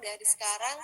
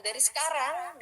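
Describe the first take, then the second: First: Said in the usual way. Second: Dari sekarang pushed up and loud; emphatic. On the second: Shown as a demonstration. Coach urges students to start practising now, emphatic.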